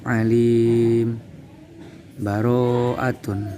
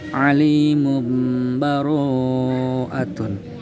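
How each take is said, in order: First: A full stop with a breath separates the words. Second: The words are joined, with an m sound linking. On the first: "boleh dibaca wa waqaf" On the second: "dibaca wasol sehingga berlaku hukum iqlab"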